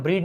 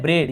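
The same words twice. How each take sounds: First: ब्रीड, rhyming with "need"; mistaken ee vowel. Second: ब्रेड, the vowel of "bed". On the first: Teacher showing students the misreading, ब्रीड with "ee". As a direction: say ब्रीड with long "ee". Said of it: "अब इसे हम ब्रीड नहीं पढ़ रहे हैं". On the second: Teacher giving students the right reading, ब्रेड with "e". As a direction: say ब्रेड with "e", never "ee". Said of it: "हम पढ़ रहे हैं ब्रेड". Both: Shown as a demonstration.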